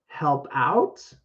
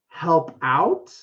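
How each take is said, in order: No difference in how they are said.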